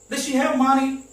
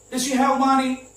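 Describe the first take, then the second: First: The word does is swallowed in fast speech. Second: The same.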